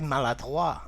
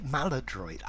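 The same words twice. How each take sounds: First: The word is pronounced the French way. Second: The word is pronounced the English way. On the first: "as they say it in French" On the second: "I wouldn't say it maladroit"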